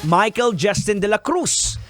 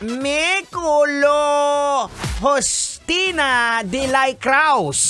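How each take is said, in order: First: The name is said plainly, without an odd accent. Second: The name is said in a strange, distorted accent. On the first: This is how the name should be read. The speaker calls it right. "ang pangalan dapat ay basahin" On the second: Someone else mangled the name this way. The speaker calls it wrong. "Ang pambanggit niya ng Michael ay"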